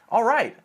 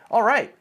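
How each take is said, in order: First: It is said with lively, excited energy. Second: The same.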